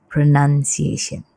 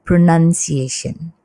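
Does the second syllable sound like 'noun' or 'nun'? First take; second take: nun; nun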